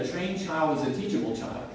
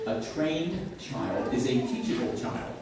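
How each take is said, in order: First: Said in the usual way. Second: Deliberate, spaced-out teaching delivery. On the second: Shown as a demonstration. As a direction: spell the maxim out word by word. Maxim repeated slowly for emphasis.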